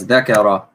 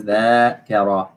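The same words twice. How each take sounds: First: ذكرة said short as dhikra, no long a after the dh; ذكرة with a short first vowel and no alif; different word. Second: ذاكرة said dhaakira with a long first a; correct word. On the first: Teacher contrasting a student's close guess, ذكرة said short. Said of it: "Ah, close". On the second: Teacher giving the right word, ذاكرة with a long aa. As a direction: stretch the aa in ذاكرة. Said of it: "This one is ذاكرة". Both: Shown as a demonstration.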